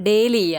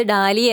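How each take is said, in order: First: ഡേലിയ said with an "ay" sound, DAY-lia, slowly; British-style Dahlia. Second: ഡാലിയ said with an open "aa", DAH-lia; American-style Dahlia. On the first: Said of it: "U K ഇംഗ്ലീഷിൽ ഇതിനെ pronounce ചെയ്യുന്നത് ഡേലിയ എന്നും". (ഡേലിയ എന്ന് British ഉച്ചാരണത്തിൽ, 'ഡേ' എന്ന് തുടങ്ങി) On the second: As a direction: say ഡാലിയ the American way, long open first vowel. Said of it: "നമ്മള് ഡാലിയ എന്ന് പറയുന്നത് അമേരിക്കൻ ഇംഗ്ലീഷ് ആണ്". (ഡാലിയ എന്ന് അമേരിക്കൻ ഉച്ചാരണത്തിൽ, നീണ്ട 'ആ' ശബ്ദത്തോടെ) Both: Retold or imitated.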